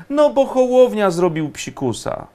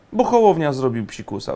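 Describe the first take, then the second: First: High-pitched mock excuse; pitched-up sarcastic answer to one's own question; mock explanation. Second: Said in the usual way. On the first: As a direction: give the excuse in a raised, mocking pitch. Mock explanation of a broken promise.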